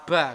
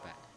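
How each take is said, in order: First: The syllable is crisp and forceful. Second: The syllable is soft and light. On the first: The speaker calls it wrong. "tidak sejelas ketika kita baca ba ngaten tidak" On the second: The speaker calls it right. "tapi ba ba ba"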